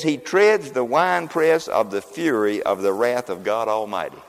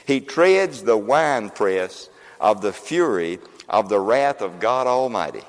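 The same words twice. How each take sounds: First: Slow scripture reading. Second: Slower and lower, weighing each word; slow solemn reading. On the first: Preacher reading scripture slowly to the congregation. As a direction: read slowly and gravely, word by word. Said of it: "that doesn't mean much just to read that". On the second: Preacher rereading the verse slowly for emphasis. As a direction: draw it out like a solemn proclamation. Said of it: "I'm gonna show you that". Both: Shown as a demonstration.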